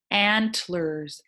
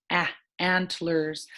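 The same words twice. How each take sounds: First: Said in the usual way. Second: "Ah" stretched as the short a of apple; slow "Ah, antlers" with a drawn short a; teacher isolating the short a vowel; short a sound. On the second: Shown as a demonstration. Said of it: "Sounds like ah in apple".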